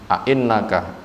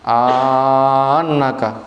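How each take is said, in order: First: Both glottal stops are pronounced fully. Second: A long vowel is inserted between the glottal stops. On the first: "dua hamzah dibaca hakiki" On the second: "memasukkan alif bainahuma di antara keduanya"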